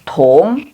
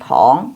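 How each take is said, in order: First: The vowel is a rounded 'u' sound. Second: The vowel is an open 'o' sound. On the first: The speaker calls it right. "tapi tung" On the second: The speaker calls it wrong. "nggak boleh te, ong, tong, bukan tong"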